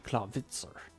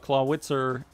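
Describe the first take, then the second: First: The W is pronounced as a V sound. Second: The W is pronounced as a W sound. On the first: "if it were pronounced in German, it would be" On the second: "as most Americans probably pronounce it"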